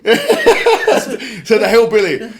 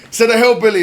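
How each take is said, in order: First: Slow, drawn-out jibe through a laugh; laughing retort. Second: Said in the usual way. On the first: Real, not acted. Streamer mocking Alex Jones, slow and laughing. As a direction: stretch "Said the hillbilly" out slowly while laughing.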